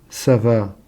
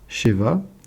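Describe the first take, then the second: First: The word begins with an s sound. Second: The word begins with a sh sound. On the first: It means satiety or abundance. "prononcer Sava, ça veut dire satiété" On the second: It means seven. "le shin peut se prononcer che"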